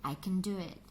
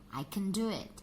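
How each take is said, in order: The two takes are said the same way.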